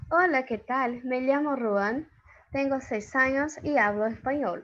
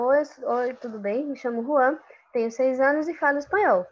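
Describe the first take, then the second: First: Spanish. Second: Said in the usual way. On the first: Shown as a demonstration. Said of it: "vamos ver o que é que ele tá dizendo". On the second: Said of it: "Ou seja, esse aí tá falando espanhol".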